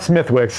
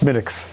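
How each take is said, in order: First: The th and w sounds are pronounced. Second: The th and w sounds are dropped. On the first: The speaker calls it wrong. "It's it's not Smithwick's" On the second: The speaker calls it right. "it's Smittix"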